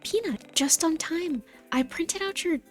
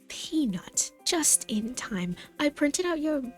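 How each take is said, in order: First: It is said in a plain accent. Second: It is said in a British accent.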